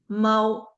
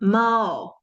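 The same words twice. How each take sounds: First: The pitch does not fall at the end. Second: The pitch falls at the end. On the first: "is the lexical tone" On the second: "this one goes 猫 ... the falling boundary tone"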